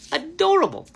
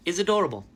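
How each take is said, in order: First: Giddy emphasis on Adorable; gushing. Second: Said in the usual way. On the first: Real, not acted. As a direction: repeat it higher and louder, delighted.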